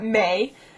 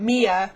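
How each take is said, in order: First: The name sounds like the word May. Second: The name sounds like the name Mia. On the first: "it's not May" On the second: "it's not Mia"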